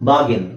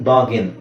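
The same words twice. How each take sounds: Both takes have the same delivery.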